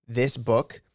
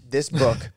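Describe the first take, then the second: First: Said in the usual way. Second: Talking through a burp; burping the words. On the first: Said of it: "I have to burp". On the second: Real, not acted. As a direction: burp while saying it. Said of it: "I have to burp, I'm so excited".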